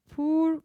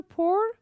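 First: Poor said slowly with a u sound, pur; poor, like Turkish pur. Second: Poor said high with an o sound, por; pour. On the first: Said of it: "poor karıştırmayacağız". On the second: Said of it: "dökmek anlamında". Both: Shown as a demonstration.

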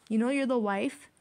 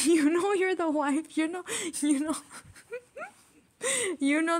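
First: Said in the usual way. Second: Laughing. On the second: Real, not acted. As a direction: crack up while repeating it. Repeat bursts into laughter.

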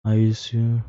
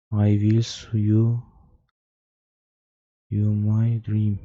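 First: Said in the usual way. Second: Slow, drawn-out eerie reading; slow spooky reading. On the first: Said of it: "repeats reading game text". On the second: Shown as a demonstration. Gamer reading the creepy message slowly, drawn out. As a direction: read it slowly like a ghost whisper. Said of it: "slow dramatic reread".

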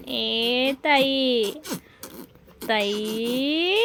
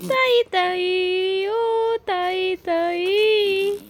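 First: Very slow, low, soft stretched calling of the name; playful low drawn-out call to the little one. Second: Very slow, high singsong calling of the name; playful high stretched call to the little one; drawn-out high call. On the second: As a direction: sing the name up high and slow to tease the baby. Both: Acted.

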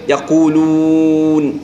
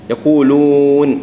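First: يقولون slow, lips squeezed hard on the waw; overpressed lips. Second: يقولون slow, waw with moderate lip rounding; measured waw. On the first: Teacher mocks the over-pressed waw in يقولون. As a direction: overdo the lip pressure on يقولون. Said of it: "واجد عاد يضغط على ذلك". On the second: Teacher models the right amount of lip rounding in يقولون. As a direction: round the lips just enough on يقولون. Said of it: "يطلع بمقدار". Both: Shown as a demonstration.

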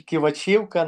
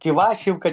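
First: Кивачівка stressed on ЧІ: киваЧІвка; stress on third syllable. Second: Кивачівка stressed on ВА: киВАчівка; stress on second syllable. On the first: Player offering the other version of the name, Кивачівка stressed on ЧІ. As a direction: say Кивачівка with the beat on ЧІ. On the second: Player trying out an unsure team name, Кивачівка stressed on ВА. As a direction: say Кивачівка with the beat on ВА. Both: Shown as a demonstration. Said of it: "як їх правильно вимовити".

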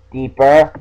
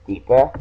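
First: Coaxing, then pressing louder; louder insistent deeper. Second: Said in the usual way. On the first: Shown as a demonstration. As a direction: push it harder and louder. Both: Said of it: "Look deep inside you".

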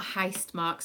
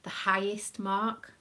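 First: "heist" said as one run-together syllable; slurred accented pronunciation. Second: "highest" slowly in two distinct syllables; careful clear pronunciation. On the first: Mum showing how her accent came out, "heist" as one syllable. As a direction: squash the word into "heist", a bit louder. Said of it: "sorry, that's my accent". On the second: Mum correcting her accent for viewers, "highest" slow and distinct. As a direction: spell out "highest" by ear, slow and deliberate. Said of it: "not heist mark". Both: Shown as a demonstration.

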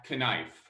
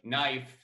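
First: "knife" said as k-nife, the K spoken before nife; sounded K. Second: "knife" said the usual way as nife, K silent. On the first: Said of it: "It's not knife". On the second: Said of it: "why the K in Knebel isn't silent". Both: Shown as a demonstration.

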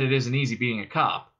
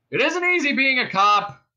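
First: Said in the usual way. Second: High, loud cop hailing; bullhorn voice. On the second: A narrator's reading. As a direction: project it as if through a bullhorn. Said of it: "then the bullhorn again".

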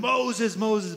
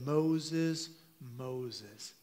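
First: Much higher and louder, urgent calling; urgent raised double call of the name; intense call. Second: Gentle, fading call of a name; intimate, the second Moses dropping much softer. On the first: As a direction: call out sharply to get his attention. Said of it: "read into it kind of an intensity". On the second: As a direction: call him softly, drawing him close. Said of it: "there's an intimacy that happens". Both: Retold or imitated.

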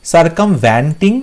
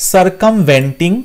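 First: "সার্কামভেন্টিং" slow, as sar-kam-VAN-ting; "সার্কামভেন্টিং" drawn out, third syllable "van"; wrong "van" vowel. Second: "সার্কামভেন্টিং" slow, as sar-kam-VEN-ting; "সার্কামভেন্টিং" drawn out, third syllable "ven"; "ven" vowel. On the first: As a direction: sound out "সার্কামভেন্টিং" slowly with an open a in "van". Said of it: "এখানে ভ্যান্টিং হবে না". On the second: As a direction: sound out "সার্কামভেন্টিং" slowly with an e in "ven". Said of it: "V E N হয়". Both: Shown as a demonstration.

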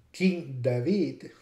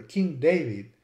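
First: King David slowly, as "king dah-VEED"; original David. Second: King David as "king DAY-vid"; English David. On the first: Lecturer contrasting names, King David as dah-VEED. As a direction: say David with ah and a long ee. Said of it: "is pronounced David in Spanish". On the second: Lecturer giving the English form, King David as DAY-vid. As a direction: say David with an ay, stressed first. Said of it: "or King David". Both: Shown as a demonstration.

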